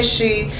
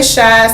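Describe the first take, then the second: First: The vowel sounds like 'ee'. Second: The vowel sounds like 'eye'. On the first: "some people say She" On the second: "Some people say Shy"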